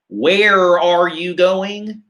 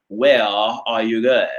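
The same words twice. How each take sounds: First: "Where are you going?" with every R hard and rolled out, slow; imitating a hard-R American-style English; mock American accent, the R in "Where" and "are" fully sounded; rhotic English. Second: Imitating a non-rhotic British accent; mock British accent, no R sounded in "Where" or "are"; British English. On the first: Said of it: "they use those hard R's". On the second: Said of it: "that British English".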